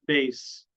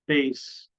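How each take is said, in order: First: The word ends with a hissing S sound. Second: The word ends with a hissing S sound.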